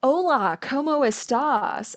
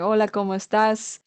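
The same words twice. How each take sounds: First: Put-on Hola, ¿cómo estás? said slowly, in an English-speaking learner's American accent; a beginner's gringo Spanish, slow. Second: Put-on Hola, ¿cómo estás? flowing, with a native-like Spanish accent; easy, natural Spanish pronunciation. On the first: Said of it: "I wasn't saying". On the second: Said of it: "a little bit of a natural accent".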